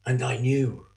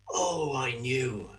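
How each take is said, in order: First: Said in the usual way. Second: Much softer and slower, almost to himself; hushed realization. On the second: Acted. Judas reliving the moment of betrayal, hushed and slow. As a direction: let the knowing sink in, slow and soft.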